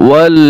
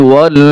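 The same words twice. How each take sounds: No difference in how they are said.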